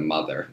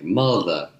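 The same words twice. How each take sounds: First: It is said without a Southern drawl. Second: It is said with a Southern drawl. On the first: "instead of" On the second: "it sounded more Southern"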